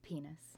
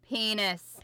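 First: It is said very quietly. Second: It is said more loudly.

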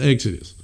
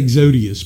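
First: The name has no extra syllable before the end. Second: The name has an extra syllable before the end. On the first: The speaker calls it right. "but it's Exodus" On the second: The speaker calls it wrong. "I always want to say Exodius"

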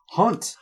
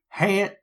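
First: The vowel sounds like 'aw' in 'law'. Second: The vowel sounds like 'a' in 'hat'.

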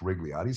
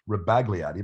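First: The name is said without a 'b' sound. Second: The name is said with a 'b' sound. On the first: The speaker calls it right. "I think his name is pronounced Rigliotti" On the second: The speaker calls it wrong. "Some people pronounce it Rebagliati"

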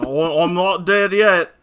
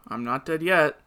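First: It is said in a British accent. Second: It is said in his normal accent.

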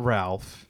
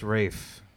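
First: The name has a short vowel and an L. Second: The name rhymes with safe, with no L. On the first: The speaker calls it wrong. "It's not Ralph" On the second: The speaker calls it right. "It's Rafe"

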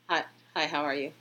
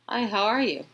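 First: It is said flatly and timidly. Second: It is said with excitement.

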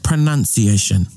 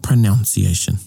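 First: The second syllable sounds like 'nun'. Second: The second syllable sounds like 'noun'. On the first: The speaker calls it right. "Whakahua. Pronunciation" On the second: The speaker calls it wrong. "Not pronunciation"

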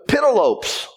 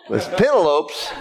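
First: The name ends rhyming with 'hopes'. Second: The name ends without rhyming with 'hopes'. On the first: The speaker calls it wrong. "when I was still ignorant" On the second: The speaker calls it right.

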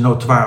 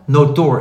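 First: The word ends with a 'wahr' sound. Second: The word ends with a plain 'oor' sound. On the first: "Ik denk dat ondertussen notoire ook mag" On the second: "Notoor is het"

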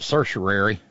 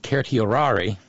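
First: The word is pronounced in an Americanized way. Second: The word is pronounced in a Latin-style way. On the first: "Americanized into being pronounced" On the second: "let's pronounce this correctly"

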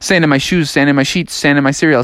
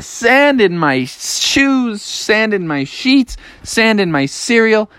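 First: It is said quickly, speeding up. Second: It is said at a normal pace.

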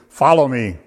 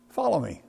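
First: It is said in a commanding, authoritative tone. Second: It is said in a bemused, wryly amused tone. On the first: It is a command to be obeyed. "Now that can be authoritative" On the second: The situation strikes the caller as amusing. "Or even bemused"

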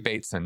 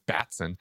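First: The first vowel is long, as in 'bait'. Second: The first vowel is short, as in 'bat'. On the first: The speaker calls it right. "I was horribly mispronouncing his name" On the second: The speaker calls it wrong. "I kept calling him Batson"

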